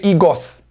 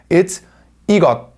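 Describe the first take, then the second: First: The final sound is a hissing s. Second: The final sound is a clipped t stop. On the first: The speaker calls it wrong. "They would not say 이것" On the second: The speaker calls it right. "it turns into ... a T stop. It sounds like a T. So by itself, like this"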